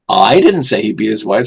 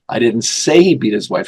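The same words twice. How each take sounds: First: The stress is on the word I. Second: The stress is on the word say.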